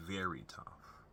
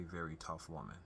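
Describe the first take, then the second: First: Soft breathy whisper of the words. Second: Said in the usual way. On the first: Real, not acted. Son quietly stressing how tough his mom is, whispered. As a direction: drop to a hushed whisper to stress it.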